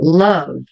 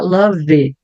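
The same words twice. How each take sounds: First: It is stretched and ends on the V. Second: An extra vowel is sounded after the V. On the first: The speaker calls it right. "Eu vou espichar um pouco a palavra love" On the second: The speaker calls it wrong. "eu não vou falar love"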